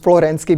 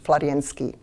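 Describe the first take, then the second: First: The name is said with an anglicized pronunciation. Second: The name is said with a Russian pronunciation. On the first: "I will use Florensky because it's my habit" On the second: "in Russian, right pronunciation is"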